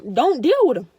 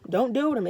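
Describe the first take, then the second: First: Loud, hammered advice; emphatic. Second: Said in the usual way. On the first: Real, not acted. Vlogger urging viewers to drop toxic family, loud and emphatic. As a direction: slam it home so they listen. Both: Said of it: "Real talk".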